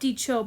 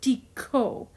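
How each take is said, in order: First: The middle consonant is a ch sound. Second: The middle consonant is a k sound. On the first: The speaker calls it wrong. "not dicho" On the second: The speaker calls it right. "but dico"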